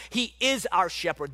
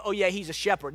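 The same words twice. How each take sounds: First: Firm, deliberate weight on "is"; "is" stretched and stressed. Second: Casual, throwaway agreement; lightly shrugged-off acknowledgement; offhand dismissal. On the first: Real, not acted. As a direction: land hard on "is" to correct them. Corrects the offhand version emphatically. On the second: Acted. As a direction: toss it off like it's only a nickname. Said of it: "It's not just a nickname".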